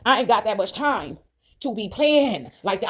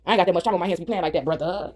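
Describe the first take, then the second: First: Slow, drawn-out insistence; slow emphatic repeat. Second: Said in the usual way. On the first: Real, not acted. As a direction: stretch TIME and PLAYING out slowly.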